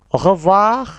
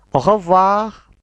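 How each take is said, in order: Both takes have the same delivery.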